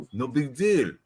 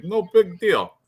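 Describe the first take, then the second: First: Mock French accent, shrugging off the opponent; bad French accent. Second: Said in the usual way. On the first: Podcaster voicing fighter sizing up opponent, bad French accent. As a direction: say it with a badly faked French accent. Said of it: "I can't do a French accent either". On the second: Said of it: "He's like".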